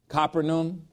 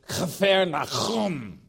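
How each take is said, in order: First: It is said smoothly, without throaty guttural sounds. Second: It is said harshly, with throaty guttural sounds. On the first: This is the common familiar pronunciation. The speaker calls it wrong. "everybody pronounces Capernaum" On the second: This is the original native pronunciation. The speaker calls it right. "but it's Chafer Nachum. That's very harsh"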